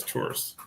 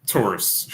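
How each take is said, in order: First: Breathless muttered repeat of "tourists"; whispered scornfully. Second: Said in the usual way. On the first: Shown as a demonstration. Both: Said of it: "she says".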